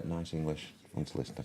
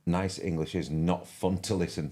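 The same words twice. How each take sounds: First: Musing repeat. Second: Said in the usual way. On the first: Real, not acted. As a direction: mull it over quietly. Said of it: "Nice English is not fun to listen to". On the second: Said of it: "Uh, nice English, fun to listen to".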